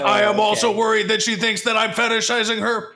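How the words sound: It is read in an exaggerated, put-on voice.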